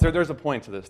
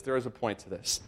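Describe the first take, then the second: First: Said in the usual way. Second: Quiet emphatic "is"; stress on is. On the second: Shown as a demonstration. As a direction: insist with a firm "is" in the middle.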